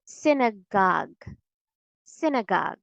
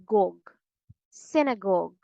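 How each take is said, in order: First: Synagogue ending in open "gahg"; American pronunciation. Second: Synagogue ending in rounded "gawg"; British pronunciation. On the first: Teacher shows the third syllable difference, American pronunciation. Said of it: "because in American English". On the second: Teacher shows the third syllable difference, British pronunciation. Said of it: "And in British English". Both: Shown as a demonstration.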